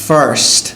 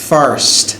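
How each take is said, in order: Both takes have the same delivery.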